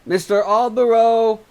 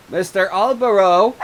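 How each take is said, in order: First: High, loud cry through the door; woman outside crying his name; calling out. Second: High, loud call through a door; woman outside calling his name. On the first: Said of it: "cried a woman from outside". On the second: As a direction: call him from outside the house. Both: Acted.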